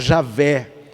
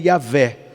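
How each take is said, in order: First: The name starts with a 'zh' sound. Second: The name starts with a 'y' sound. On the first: "Ou a gente fala Javé" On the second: "a pronúncia mais próxima do hebraico"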